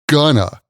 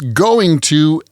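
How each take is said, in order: First: The words blend into one reduced word. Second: Both words are said fully and separately. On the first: "we usually pronounce going to as gonna" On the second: "we usually pronounce going to as"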